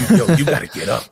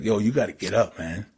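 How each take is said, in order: First: Louder, higher retold urging; insistent wake-up call. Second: Said in the usual way. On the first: Stranger waking the sleeping rapper on the train, insistent. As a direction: rouse a sleeper with a raised voice.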